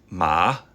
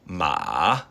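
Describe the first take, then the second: First: It is said with the second tone. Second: It is said with the third tone.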